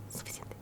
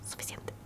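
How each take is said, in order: Both takes have the same delivery.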